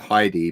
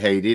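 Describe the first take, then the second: First: The name is said the English way. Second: The name is said the Swedish way. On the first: This is how English speakers usually say it. "over here, like English, we do like Heidi" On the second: This is how the owner of the name says it. "you do pronounce it Haiti, don't you?"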